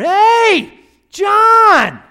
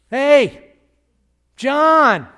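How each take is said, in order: First: The name is called out very loudly. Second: The name is called at a moderate volume.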